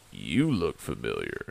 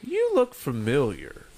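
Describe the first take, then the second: First: Echoed recognition. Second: Lightly voiced stripper, sizing him up; stripper's recognition. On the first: Retold or imitated. Man answering the stripper who recognised him, low echo. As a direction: drop the voice low and echo her. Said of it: "I was like". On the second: Stripper to a half-recognised customer, lightly acted recognition. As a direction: retell her remark with a small lift. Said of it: "she just goes".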